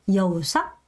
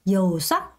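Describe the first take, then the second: Both takes have the same delivery.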